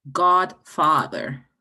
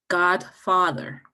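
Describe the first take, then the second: First: Godfather said even slower and louder, stress on God; slow repeat. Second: Godfather said very slowly, stretching each syllable; demo of Godfather. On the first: Teacher repeats Godfather for the class, slow and emphatic. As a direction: stretch Godfather out, leaning hard on God. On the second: Teacher models Godfather for students, slow and drawn out. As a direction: draw out Godfather slowly to show the stress. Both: Shown as a demonstration. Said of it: "dónde está el énfasis de la sílaba".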